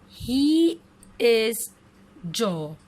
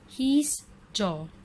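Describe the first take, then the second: First: It is said as two full words. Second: It is said as one contracted syllable.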